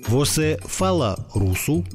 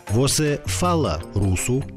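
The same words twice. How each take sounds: The two takes are said the same way.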